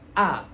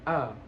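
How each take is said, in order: First: The vowel is said with the mouth wide open. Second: The vowel is said with the mouth barely open. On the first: The speaker calls it right. "itu harus dibuka" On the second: The speaker calls it wrong.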